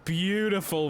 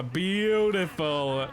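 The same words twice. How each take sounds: First: Said in the usual way. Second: Beautiful stretched very slowly, savoured; drawn-out praise. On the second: Real, not acted. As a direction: draw out Beautiful like admiring art.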